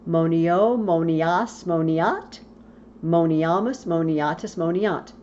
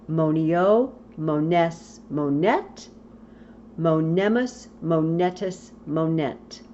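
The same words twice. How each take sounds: First: Monias, moniat, with an A sound where none belongs; wrong A endings. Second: Mones, monet with a clear E and no A; correct E endings. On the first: Teacher demonstrating the students' mistaken A endings. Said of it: "you're going to want to say". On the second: Teacher giving the correct conjugation without A. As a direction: recite it right, mones monet monemus. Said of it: "there's no A". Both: Shown as a demonstration.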